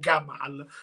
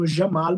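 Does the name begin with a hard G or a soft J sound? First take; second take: hard G; soft J. First: It begins with a hard G sound. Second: It begins with a soft J sound. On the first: This is how it is said in Egypt. "con la G pesante" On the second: "devi utilizzare la j come se come nel francese je t'aime"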